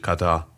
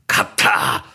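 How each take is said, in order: First: It is said with a plain, calm German pronunciation. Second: It is said with an exaggerated Arabic-sounding pronunciation. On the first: The speaker is not trying to sound foreign. "beruhigt euch, Katar. Also reicht zumindest" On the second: The speaker is trying to sound Arabic. "der Versuch Katar. Von Urdeutschen, ... arabisch zu klingen"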